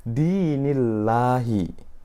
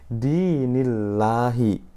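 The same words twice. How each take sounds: No difference in how they are said.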